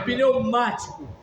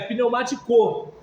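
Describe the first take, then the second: First: The stress is on the second syllable. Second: The stress is on the last syllable. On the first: The speaker calls it right. "é pneumático... ela é proparoxítona" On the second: The speaker calls it wrong. "Para ser oxítona teria que ser"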